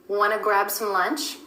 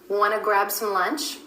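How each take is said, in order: The two takes are said the same way.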